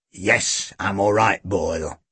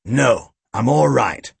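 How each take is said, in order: First: Low, subdued reassurance; weary police chief. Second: Emphatic, restraining refusal; firm police chief. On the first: Chief answering his worried sidekick, wearily subdued. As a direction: settle the sidekick, voice low and sinking. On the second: Chief declining Boyle's violent offer, firmly. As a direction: call off the sidekick firmly. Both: A narrator's reading.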